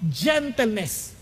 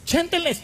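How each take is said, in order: First: Gentleness drawn out slowly, each syllable weighted; slow emphasis. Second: Gentleness said again quicker, pitch lifted; quick repeat. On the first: Preacher slowly savouring the word Gentleness. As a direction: let Gentleness sink in, slow. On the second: Preacher repeats Gentleness with a lift. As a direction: snap Gentleness back up, brisker. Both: Shown as a demonstration.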